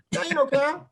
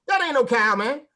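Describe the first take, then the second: First: Even higher, pitched-up disbelief; higher indignant repeat. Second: Higher and louder, outraged; indignant exclamation. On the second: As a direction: insist it's no cow, voice up high. Indignant punchline repeated. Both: Retold or imitated.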